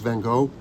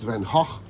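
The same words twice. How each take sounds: First: The name is pronounced the American way. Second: The name is pronounced the Dutch way. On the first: "In America, it's Van Gogh" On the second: "in where he was born, in Zundert, it's Van Gogh"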